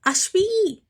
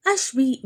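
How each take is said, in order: First: Much higher, loud calling cry; desperate shout. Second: Said in the usual way. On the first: Acted. Advaith cries out for his missing wife, shouting. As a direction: call her name across the hall. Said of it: "గట్టిగా అరిచాడు అద్వైత్".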